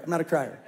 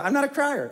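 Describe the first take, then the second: First: Laughing repeat. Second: High insistence. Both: Shown as a demonstration.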